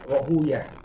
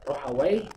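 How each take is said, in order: First: The name ends with a 'yah' sound. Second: The name ends with a 'wai' sound. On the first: Most hadith scholars read it this way. "Kebanyakan ahli hadis membacanya dengan Rohuyah" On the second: Some think the ending names a devil. "bisa dibaca dua ya"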